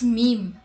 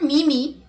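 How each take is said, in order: First: It is said as one syllable, meem. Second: It is said as two syllables, me-me. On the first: The speaker calls it right. "it's meme" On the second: The speaker calls it wrong. "But it's not mimi"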